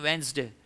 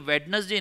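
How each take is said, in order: First: The middle d is dropped, said as wens-day. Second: Every letter, including the middle d, is sounded. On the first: The speaker calls it right. "ये वेंसडे" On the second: The speaker calls it wrong. "भाई ये वेडनेसडे नहीं"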